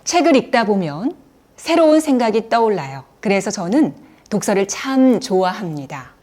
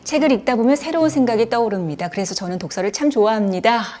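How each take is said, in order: First: Short pauses break up each sentence into chunks. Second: The two sentences run on with no pause. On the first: It sounds more dignified and relaxed. The speaker calls it right. "이렇게 중간중간 끊어 말하는 게" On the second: It leaves the listener breathless and without ease. The speaker calls it wrong. "이렇게 쉬지 않고 말씀을 이어가시거든요"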